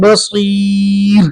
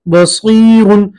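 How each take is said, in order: First: The word ends abruptly on a light 'r'. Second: The word ends with a nasal 'un' ending. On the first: The reciter stops at this word. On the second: The recitation continues without stopping.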